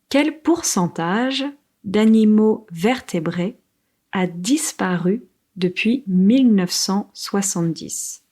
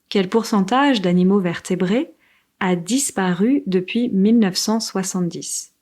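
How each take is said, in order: First: It is said slowly. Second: It is said fast.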